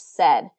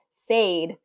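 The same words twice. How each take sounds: First: The vowel is a short 'eh' sound. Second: The vowel is a long 'ay' sound. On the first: This is how the word is usually said. "this is usually pronounced as said in English" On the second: This follows the spelling rule for two vowels. "It really should be said, right?"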